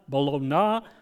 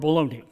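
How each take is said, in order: First: The word ends with a 'na' sound. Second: The word ends without a 'na' sound.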